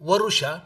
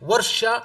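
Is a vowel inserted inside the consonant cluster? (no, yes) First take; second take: yes; no. First: An extra u vowel separates the r and sh. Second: The r and sh sounds are joined without a vowel.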